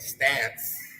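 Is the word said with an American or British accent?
American. It is said with an American accent.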